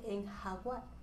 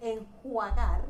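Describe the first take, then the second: First: The a comes before the u. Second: The u comes before the a. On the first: The speaker calls it wrong. "dice enjaguar" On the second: The speaker calls it right. "por decir enjuagar"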